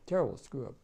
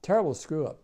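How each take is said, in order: First: Said in the usual way. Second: TERRIBLE hit hard and much louder; bitter, punching the word terrible; emphatic. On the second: Real, not acted. Veteran condemning the war, stressing terrible.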